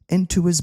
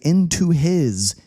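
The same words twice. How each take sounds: First: The h sound in 'his' is dropped. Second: The h sound in 'his' is clearly pronounced. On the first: "I'm not pronouncing the H" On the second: "I don't say into his"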